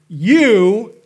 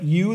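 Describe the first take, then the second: First: You hit hard and much louder; stress on You. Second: Said in the usual way. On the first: Shown as a demonstration. Pastor showing Jesus's emphatic You, loud stress. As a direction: punch the word You like Jesus pointing. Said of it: "That means he's going". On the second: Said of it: "is emphatic".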